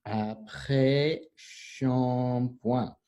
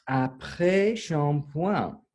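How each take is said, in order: First: "Après shampoing" very slow, each syllable held apart. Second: "Après shampoing" slow, higher, in one phrase; modelling pronunciation. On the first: Teacher breaks down "Après shampoing" for class, drawn-out syllables. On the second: Teacher gives the class "Après shampoing", slow higher model. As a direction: say "Après shampoing" slowly and raised. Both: Shown as a demonstration.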